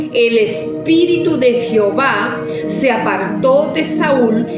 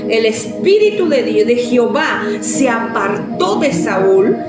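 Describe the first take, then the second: Both takes have the same delivery.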